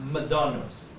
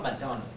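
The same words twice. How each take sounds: First: The m is said with the lips fully closed. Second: The m is said without fully closing the lips. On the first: The speaker calls it right. "but McDonald's" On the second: The speaker calls it wrong. "not McDonald's"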